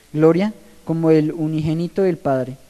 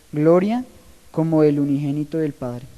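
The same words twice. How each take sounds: The two takes are said the same way.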